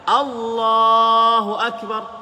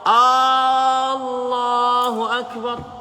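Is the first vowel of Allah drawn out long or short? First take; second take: short; long. First: The first vowel of Allah is kept short. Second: The first vowel of Allah is drawn out long. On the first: The speaker calls it right. "A-nya tidak panjang" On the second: The speaker calls it wrong. "memanjangkan ucapan Allah. ... Salah"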